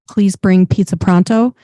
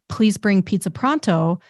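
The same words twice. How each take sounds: First: The p sounds pop with bursts of air. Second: The p sounds are clean without air bursts. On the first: The speaker calls it wrong. "move the microphone in front of my mouth called on axis" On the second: The speaker calls it right. "it's pointed at the corner of my mouth. This is called off axis... it sounds fine"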